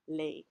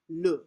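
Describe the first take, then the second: First: The vowel is a clear Spanish-like 'e'. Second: The vowel is short and clipped, French-like. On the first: The speaker calls it wrong. "as we would if we were in a Spanish class" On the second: The speaker calls it right. "that sense of being punched in the gut"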